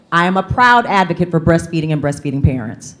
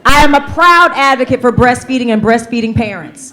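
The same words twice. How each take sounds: First: Said in the usual way. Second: Proud and louder, projected to the room; said with your chest. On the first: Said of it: "say it with me". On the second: Shown as a demonstration. Leading the audience's repeat, proud and loud. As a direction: belt the affirmation with full chest. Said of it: "Say it with your chest".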